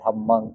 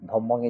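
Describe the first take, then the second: First: The vowels are open 'ah' sounds. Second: The vowels are short 'aw' sounds. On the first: The speaker calls it right. "অ থেকে আ" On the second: The speaker calls it wrong. "ধম্মং এর জায়গায়"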